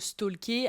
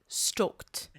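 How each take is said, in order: First: The word is said with a French accent. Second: The word is said with an English accent. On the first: "avec notre bon accent français" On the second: "je le dis avec l'accent"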